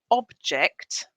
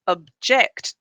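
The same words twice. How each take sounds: First: The stress is on the first syllable. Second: The stress is on the second syllable. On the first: It is used as a noun. "if it's a noun, the stress is on the first syllable" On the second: It is used as a verb. "if it's the verb, the stress is on the second syllable"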